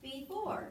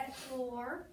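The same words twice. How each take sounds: First: "Before" split as bee-fore, long first vowel; long-vowel syllable division. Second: "Before" split as bef-ore, short first vowel; short-vowel syllable division. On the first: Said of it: "Does that sound natural?". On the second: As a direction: sound out "Before" with a short e, as in bed. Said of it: "you divide after the consonant". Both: Shown as a demonstration.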